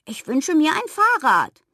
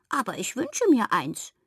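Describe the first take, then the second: First: High, loud piglet demand; insistent play-acted piglet shout; toy pig calling out. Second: Little piping toy-pig voice; small squeaky wish from a toy pig; squeaky cuddly pig. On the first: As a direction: cry out the wish as a stubborn toy pig. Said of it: "schüttelte meine Hand ab und rief". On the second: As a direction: peep it like a plush piglet. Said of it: "piepste das Kuschelschwein". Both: A narrator's reading.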